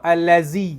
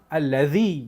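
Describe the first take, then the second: First: The middle consonant is a plain z sound. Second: The middle consonant is a dh sound. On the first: The speaker calls it wrong. "Lidah tak keluar, salah. Itu zai" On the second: The speaker calls it right. "yang tulis itu zal"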